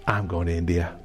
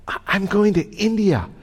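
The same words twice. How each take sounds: First: Low and soft, deciding to himself; hushed inner resolve; quiet resolve. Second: Raised high, pushing back on the agent; pitched-up mock protest; insistent protest. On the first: Retold or imitated. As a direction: murmur the decision inwardly. Quiet private decision. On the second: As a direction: insist you must get to India.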